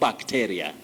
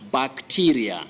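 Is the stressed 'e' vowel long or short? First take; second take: short; long. First: The stressed vowel is a short sound. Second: The stressed vowel is a long 'ee' sound. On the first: The speaker calls it wrong. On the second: The speaker calls it right. "E takes the long vowel sound E"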